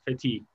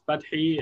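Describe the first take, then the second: First: The name is said with American pronunciation. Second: The name is said with Arabic pronunciation.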